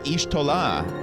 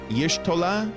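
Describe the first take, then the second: First: The name starts with a plain vowel sound. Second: The name starts with a Y sound. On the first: The speaker calls it wrong. "I was calling her Ishtola as well" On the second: The speaker calls it right. "It starts with a Yash"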